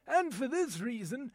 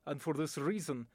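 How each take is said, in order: First: "and for this reason" in an indignant British English accent. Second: "and for this reason" in a low, grave Russian accent. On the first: An Englishman arguing politics, says "and for this reason" in an English accent. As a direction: say "and for this reason" like a grumpy Englishman, rising at the end. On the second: A Russian statesman says "and for this reason" in a Russian accent. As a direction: say "and for this reason" like a stern Russian official, falling at the end. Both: Shown as a demonstration. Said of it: "my voice talent demonstration".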